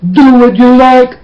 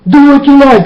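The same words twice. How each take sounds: First: Higher mock voice; mock quote. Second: Sarcastic echo. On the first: Preacher mimicking people who think God allows anything, higher mock tone. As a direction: parrot their easy belief with a light sneer. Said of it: "because you will think". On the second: Retold or imitated. Preacher repeating the careless believers' phrase, sarcastic and higher. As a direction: throw their words back with scorn.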